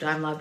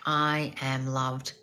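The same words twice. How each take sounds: First: It is said flatly and mechanically. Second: It is said with feeling and conviction.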